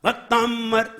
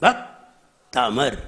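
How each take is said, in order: First: भक्तामर run together with a held double m, "bak-TAAMM-ar"; level, joined-up भक्तामर as "baktammar"; mispronounced. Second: भक्तामर very slow and low, "bhak... taamar"; low two-part भक्तामर with a long gap; correct, unforced. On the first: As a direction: press on the middle of भक्तामर and lengthen the m. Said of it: "नहीं, नहीं". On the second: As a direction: break भक्तामर after bhak, keep the m single. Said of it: "जोर नहीं लगाइए". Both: Shown as a demonstration.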